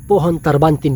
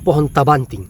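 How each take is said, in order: First: The name is said as written in scripture. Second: The name is said in the local misreading. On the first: The speaker calls it right. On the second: The speaker calls it wrong.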